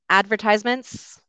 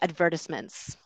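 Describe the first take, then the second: First: The stress falls on the 'tise' syllable. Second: The stress falls on the 'ver' syllable. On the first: This is the North American way of saying it. "I think it's more common in North America to say advertisements" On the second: This is the British way of saying it. "And in the UK, they'll usually say advertisements"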